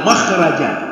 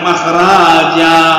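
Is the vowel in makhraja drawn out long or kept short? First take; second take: short; long. First: The vowel is kept short. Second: The vowel is drawn out long. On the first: The speaker calls it right. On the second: The speaker calls it wrong.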